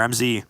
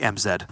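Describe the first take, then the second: First: The letter Z is said as 'zee'. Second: The letter Z is said as 'zed'.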